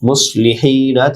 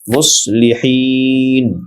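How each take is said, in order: First: The word ends with a final 'a' vowel. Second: The word ends on a stopped 'n' sound. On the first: "মুসলিহিনা থেকে" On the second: "শেষের নুনে জজম হবে ওয়াকফ হওয়ার কারণে"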